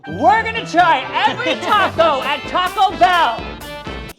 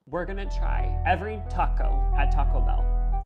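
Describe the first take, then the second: First: It is said in a louder, more energetic voice. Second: It is said at a normal, quieter volume.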